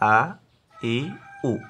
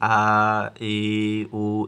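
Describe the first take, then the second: First: The vowels are said short and quick. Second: The vowels are drawn out long. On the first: The speaker calls it right. "তাড়াতাড়ি" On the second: The speaker calls it wrong. "এভাবে টানা যাবে না"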